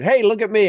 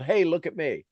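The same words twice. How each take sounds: First: Higher, louder call of "Hey, look at me"; mock yell. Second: Said in the usual way. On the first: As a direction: shout it like a tree calling for attention. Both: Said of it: "literally somebody yelled".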